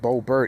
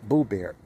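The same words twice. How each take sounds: First: The name is said with an English pronunciation. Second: The name is said with a Dutch pronunciation. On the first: The speaker calls it wrong. "It's not Boebert" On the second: The speaker calls it right. "the way any other Dutchman would pronounce her last name"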